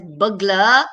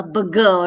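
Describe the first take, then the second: First: "burglar" with an L opening the second syllable; careful pronunciation of burglar. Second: "burger" with no L, just bur-ger; contrasted word burger. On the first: Teacher showing students how burglar is pronounced, careful pronunciation. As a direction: say "burglar" as burg-ler, keeping the L. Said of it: "is pronounced as burglar". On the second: Teacher warning students burglar is not a burger, contrasting pronunciation. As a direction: say "burger" as bur-guh, leaving out any L. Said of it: "It's not a burger". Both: Shown as a demonstration.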